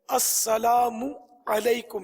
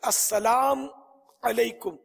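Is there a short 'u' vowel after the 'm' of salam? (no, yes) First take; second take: yes; no. First: The m is followed by a short u. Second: The m carries no vowel after it. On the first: The speaker calls it right. "मीम पर पेश पढ़ना है।" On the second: The speaker calls it wrong. "मीम को अगर साकिन पढ़ा"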